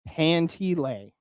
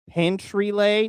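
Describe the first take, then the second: First: No r sound follows the first syllable. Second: An r sound follows the first syllable. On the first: The speaker calls it right. "it's panty lay" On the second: The speaker calls it wrong.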